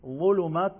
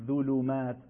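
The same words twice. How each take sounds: First: "ظلمات" with a thick, full opening dh; voluminous emphatic ظ in "ظلمات"; correct, heavy za. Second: "ظلمات" mispronounced with light dhal, as "ذلمات"; wrong, thin za. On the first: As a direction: say "ظلمات" with tongue root raised, higher pitched. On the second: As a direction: say "ظلمات" starting with a thin, unthickened dh. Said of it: "نمیگیم ظلمات". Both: Shown as a demonstration.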